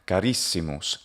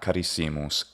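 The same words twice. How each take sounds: First: The stress is on the second syllable, ris. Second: The stress is on the third syllable, si. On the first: The speaker calls it right. "Carissimus, not carissimus" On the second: The speaker calls it wrong. "That pronunciation is impossible"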